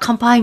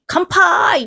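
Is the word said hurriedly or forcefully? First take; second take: hurriedly; forcefully. First: It is rushed out quickly without emphasis. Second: It is said with full force and energy. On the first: The speaker calls it wrong. "そのままなんか話の流れでバーっと、" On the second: The speaker calls it right. "思いっきり"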